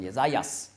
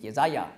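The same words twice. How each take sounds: First: "Jesajas" closed with an s; "Jesajas", ending in -jas; Greek-style final S. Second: "Jesaja" ending on an open a; "Jesaja", vowel-final -ja; without final S. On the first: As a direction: say "Jesajas" with the s added after -ja. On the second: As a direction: say "Jesaja" with no s at the end. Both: Shown as a demonstration. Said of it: "noch ein S anhängen".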